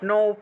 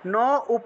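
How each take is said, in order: First: The sounds are joined into one syllable with o. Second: The sounds are broken apart into na and upa. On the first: "ওকার উচ্চারণ করে" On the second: "ভাঙলে ন উপ এইভাবে উচ্চারণ করতে পারেন"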